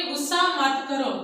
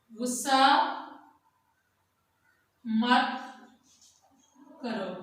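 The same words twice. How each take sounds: First: Said in the usual way. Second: Slow dictation for pupils writing; गुस्सा मत करो said word by word with long gaps; dictation pace. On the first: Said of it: "आगे हम लिखेंगे". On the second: Shown as a demonstration. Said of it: "आगे हम लिखेंगे गुस्सा मत करो".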